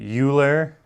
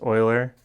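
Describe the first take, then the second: First: The name gets the common American pronunciation. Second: The name gets a different, non-American pronunciation. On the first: The speaker calls it wrong. "Americans, they say Euler. It's not Euler" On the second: The speaker calls it right. "It is going to be pronounced Euler"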